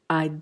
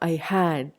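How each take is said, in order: First: 'Had' shrinks to a single 'd' sound. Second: Both words are said in full.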